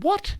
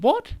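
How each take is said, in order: First: "What?" jumps much higher, a mock baffled squeak; retold high bewildered what; high puzzled what. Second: Said in the usual way. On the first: Scaffolder repeats what, high and baffled. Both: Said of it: "and he said".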